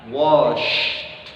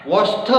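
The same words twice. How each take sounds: First: "Washed" said as wosh, the final t dropped and unreleased. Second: Over-stressed "Washed" with a big rising push; exaggerated washed. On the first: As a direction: say "Washed" with the t barely there. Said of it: "Tapi di drop". ("Washed" dengan T di-drop) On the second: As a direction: overdo "Washed" with a high rise. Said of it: "jangan juga kalian lebaikan". ("Washed" dilebih-lebihkan naik tinggi) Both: Shown as a demonstration.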